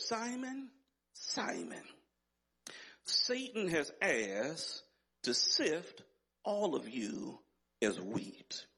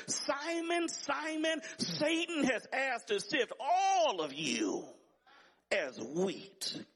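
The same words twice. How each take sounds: First: Slow, grave scripture quote with long pauses; measured solemn warning. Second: High, ringing pulpit cry, dropping on the last words; fervent high-pitched scripture quote; urgent preached warning. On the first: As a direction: let each phrase sink in, dropping away at the end. Quoting Jesus warning Simon, measured first reading. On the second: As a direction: call the name high and urgently, then drop away. Quoting Jesus, preached at full pitch. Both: Retold or imitated.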